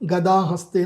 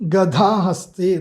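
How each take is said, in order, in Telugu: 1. మధ్య హల్లు ఊపిరి లేని సాధారణ d. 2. మధ్య హల్లు ఊపిరితో కూడిన dh. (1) "గదాహస్తే అని తప్పు" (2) "ధ ఒత్తు ధ పలకాలి"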